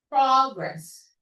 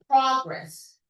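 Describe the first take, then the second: Both takes have the same delivery.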